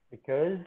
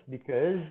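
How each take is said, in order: No difference in how they are said.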